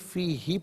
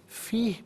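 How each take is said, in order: First: The word ends with a short final vowel. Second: The word ends on a consonant, vowel dropped. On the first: The reading continues without stopping. "यहाँ लुम्तुन्ननी फ़ीहि पढ़ेंगे" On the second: The reader stops at this word. "वफ़ की सूरत में फ़ीह पढ़ा जाएगा"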